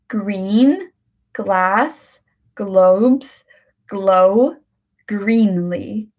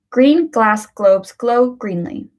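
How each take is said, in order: First: The phrase is said slowly, word by word. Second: The phrase is said at a moderate speed. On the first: "let's start with the slow one" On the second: "Let's do this at a medium pace now"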